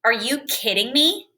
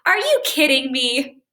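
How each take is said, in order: First: Annoyed, rising challenge on me; upset disbelief. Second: Light, amused teasing ask; playful joking question. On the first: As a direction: say it like you're truly bothered. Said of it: "Here's the second way". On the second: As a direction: ask it like you're in on a joke. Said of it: "So here's the first way". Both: Shown as a demonstration.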